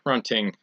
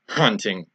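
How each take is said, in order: First: The word starts without a hard H sound. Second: The word starts with a hard H sound.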